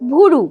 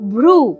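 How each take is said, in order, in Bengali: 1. একটি স্বরধ্বনি ব্যঞ্জনগুচ্ছকে দুটি দলে ভাগ করে দেয়। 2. শব্দটি ব্যঞ্জনগুচ্ছ দিয়ে শুরু হয়। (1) "সে সেটাকে সহজ করে বলবে ভুরু।" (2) "যেমন আসল ওয়ার্ডটা ছিল ভ্রু"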